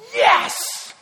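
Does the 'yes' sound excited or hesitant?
excited. The word is said with joyful excitement. He is overjoyed that you arrived. The speaker calls it right. "God is going to go"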